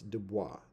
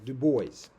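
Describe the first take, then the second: First: The final s of the name is silent. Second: The final s of the name is sounded. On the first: This is how the name is said in French. "the pronunciation of the S en français is not made. It's not sounded" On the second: This is the Americanized form of the name. "generally speaking, in the United States"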